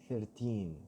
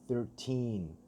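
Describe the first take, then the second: No difference in how they are said.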